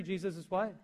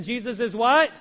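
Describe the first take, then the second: First: Said in the usual way. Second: Louder, firm call to the congregation; preacher rallying his people to answer, loud and firm; with conviction. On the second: Shown as a demonstration. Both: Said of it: "Let's say that with conviction".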